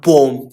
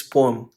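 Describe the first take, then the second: First: "poem" hit loud as one syllable, POME; "poem" loud, with no second vowel; mispronounced poem. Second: "poem" said as POH-um; "poem" with a weak vowel before the m; corrected poem. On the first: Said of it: "not poem". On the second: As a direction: say "poem" in two syllables. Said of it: "It's poem". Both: Shown as a demonstration.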